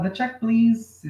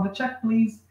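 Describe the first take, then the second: First: Slow, drawn-out call across the room; calling to a far waiter. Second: Said in the usual way. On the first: Shown as a demonstration. Teacher showing how to call a waiter who is far away, slow and drawn out. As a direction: stretch it out so he hears you from far off. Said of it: "se o cara tá longe". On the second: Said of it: "Ele já tá lá perto".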